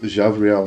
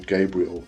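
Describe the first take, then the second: First: The name is said with a Hebrew pronunciation. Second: The name is said with an English pronunciation. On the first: The speaker calls it right. "that's how I was taught to pronounce them" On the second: The speaker calls it wrong. "I don't say Archangel Gabriel"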